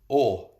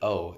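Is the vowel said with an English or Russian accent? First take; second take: Russian; English. First: The vowel is said with a Russian accent. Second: The vowel is said with an English accent. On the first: "O is how you say it in Russian" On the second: "O is how you say it in English"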